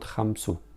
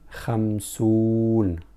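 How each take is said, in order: First: The word ends on a vowel without n. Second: The word ends with an n sound. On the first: The speaker calls it wrong. "not khamsu" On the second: The speaker calls it right. "we spell it khamsun"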